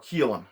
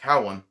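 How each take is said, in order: First: The first vowel sounds like 'keel'. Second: The first vowel sounds like 'cow'. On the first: This is how the name is actually pronounced. The speaker calls it right. "is pronounced Keel, or Keelan" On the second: This is how the spelling looks to read. The speaker calls it wrong. "which to me looks like Cowlin"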